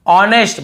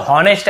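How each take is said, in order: First: Said in the usual way. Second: हॉनेस्ट begun with a spoken H; H wrongly sounded. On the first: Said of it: "हमें केवल ऑनेस्ट पढ़ना है". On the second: Shown as a demonstration. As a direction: add the mistaken H to हॉनेस्ट. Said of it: "ऐसे बोल देते हैं".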